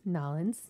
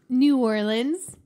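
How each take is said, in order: First: The name is squeezed into two short syllables. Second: The name is said in full, syllables distinct.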